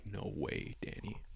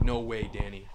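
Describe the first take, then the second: First: Much softer, barely voiced, lower; stunned hush on seeing the resealed box; heart sinking. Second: Said in the usual way. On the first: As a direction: let it fall out in quiet disbelief. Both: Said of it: "my heart sinks".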